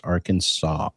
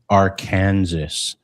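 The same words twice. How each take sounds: First: The final S sound is silent. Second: The final S sound is pronounced. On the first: The speaker calls it right. "but it's Arkansas" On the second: The speaker calls it wrong. "So we don't say Arkansas"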